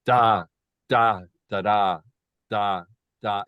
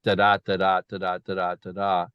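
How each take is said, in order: First: Each "da" separate and loud, hammered; every beat stressed. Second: Even "da-da" pairs, light then strong; regular iambic beat. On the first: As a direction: pound out equal heavy beats. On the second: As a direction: tap out a steady iambic pulse. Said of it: "from the expected da-da". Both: Shown as a demonstration.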